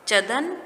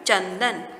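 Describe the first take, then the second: First: The word is said without a nasal sound. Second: The word is said with a nasal sound. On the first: The speaker calls it wrong. "यहाँ ये ये proper नहीं है।" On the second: The speaker calls it right. "जब हमने चंद्र बिंदु और अनुस्वार लगाया तो यह हमारा सही शब्द बन गए।"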